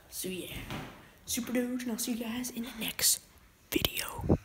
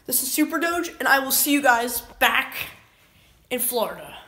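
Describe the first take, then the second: First: Whispered sign-off; breathy late-night whisper. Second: Said in the usual way. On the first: Acted. Late-night sign-off repeated quietly.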